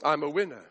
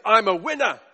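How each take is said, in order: First: Low, deadpan echo of a boast; lower, understated and ironic; subdued boast. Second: Full-voiced, confident boast; cocky man showing off; boastful winner. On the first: Acted. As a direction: say the brag with doom hanging over it. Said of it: "he says, and walks straight into death". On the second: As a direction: proclaim it like a self-made champion. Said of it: "That's how he spoke".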